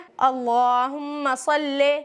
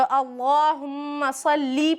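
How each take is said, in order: First: The last word ends in an e sound. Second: The last word ends in an ee sound. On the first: The speaker calls it wrong. "जैसे अक्सर लोग पढ़ते हैं" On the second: The speaker calls it right. "लाम पर जेर है तो अल्लाहुम्मा सल्ली पढ़ना चाहिए"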